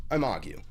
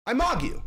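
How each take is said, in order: First: Said in the usual way. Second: Squeaky, much higher catchphrase; mock high catchphrase. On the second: Streamer yelping his catchphrase at chat, high and silly.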